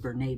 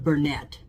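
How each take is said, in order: First: The final T is left silent. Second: The final T is clearly sounded. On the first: "it's a French word and they don't pronounce T's" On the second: "I think that's how you pronounce it"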